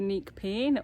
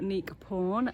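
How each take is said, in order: First: The name is said with an English-style pronunciation. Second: The name is said with a Cambodian-style pronunciation.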